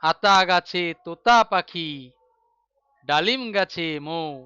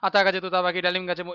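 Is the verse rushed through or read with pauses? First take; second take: with pauses; rushed. First: The verse is read with short pauses between phrases. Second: The verse is rushed through without any pauses. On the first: The speaker calls it right. "মাঝে মাঝে থামি" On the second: The speaker calls it wrong. "এরকম তো বলি না। ... গড় গড় করে পড়ে দিলাম"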